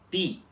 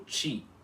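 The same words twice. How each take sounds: First: The t is a plain t without hiss. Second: The t is hissed like a ch sound. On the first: The speaker calls it right. "vocês vão ter que pronunciar como ti" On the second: The speaker calls it wrong. "e não como ti"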